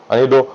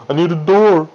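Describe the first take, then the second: First: Said in the usual way. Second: Louder, more urgent second time; urgent repeat. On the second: Real, not acted. To himself as night nears, louder urgent repeat. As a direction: press it, now it's urgent.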